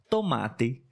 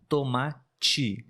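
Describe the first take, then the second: First: The final syllable sounds like teh. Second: The final syllable sounds like chee. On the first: This is how people in other regions, often the Northeast, say it. "Mas existem regiões que falam tomate" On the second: This is how people in the speaker's own region say it. "Aqui na nossa região nós falamos assim, ti, ti"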